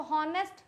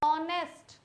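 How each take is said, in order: First: हॉनेस्ट with the H sounded; wrong pronunciation. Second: ऑनेस्ट starting straight on the open vowel; silent H. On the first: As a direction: breathe an audible H at the start of हॉनेस्ट. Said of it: "इसको हॉनेस्ट बोलोगे तो गड़बड़ हो जाएगा". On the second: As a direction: say ऑनेस्ट slowly with no H sound. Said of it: "बोलना है ऑनेस्ट". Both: Shown as a demonstration.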